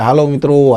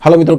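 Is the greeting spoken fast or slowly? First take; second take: slowly; fast. First: The greeting is spoken very slowly. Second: The greeting is spoken very fast. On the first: The listener will find it tedious. "તો આ રીતે પણ હું ધીમે બોલીશ તો તમને નહીં ગમે" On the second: The listener will not be able to follow. "એટલે કે હું ઝડપથી બોલું"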